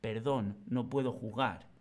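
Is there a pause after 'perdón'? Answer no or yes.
no. It is said as one phrase without a pause. The speaker calls it right. "sino que va todo unido"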